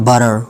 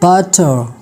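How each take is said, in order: First: An American accent with a final R sound. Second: A British accent with no final R sound. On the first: "American English जो है इसमें यह इसको कहा जाता है बरर" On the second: "R is silent in British English"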